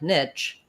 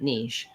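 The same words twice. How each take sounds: First: It is said the English way, like 'nitch'. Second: It is said the French way, like 'neesh'. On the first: Listeners in France would not understand it. The speaker calls it wrong. "people are not going to know what I'm saying" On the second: Listeners in France would understand it. The speaker calls it right. "it's important for me to know to be able to say niche"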